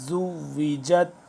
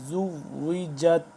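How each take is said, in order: Both takes have the same delivery.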